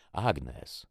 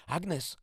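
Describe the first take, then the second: First: Firm, louder name-call; authoritarian. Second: Very high, strained call; stifled panicked cry. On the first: Man addresses the armed girl, authoritarian. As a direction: say the name as a command. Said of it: "odezwał się autorytarnym tonem". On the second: Sister calls to Agnes from under her attacker, panicked. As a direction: cry the name in panic, pitched right up. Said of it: "zduszony i spanikowany głos mojej siostry". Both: A narrator's reading.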